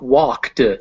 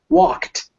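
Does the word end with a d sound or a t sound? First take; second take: d sound; t sound. First: The word ends with a voiced d sound. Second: The word ends with a voiceless t sound. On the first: The speaker calls it wrong. "not walked" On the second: The speaker calls it right. "it becomes walked"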